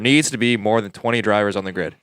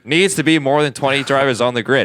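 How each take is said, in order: First: It is said with moderate, everyday force. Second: It is said with strong, full-chested force.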